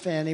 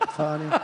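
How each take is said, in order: First: The name is said plainly, in an American way. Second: The name is said with a mock French accent.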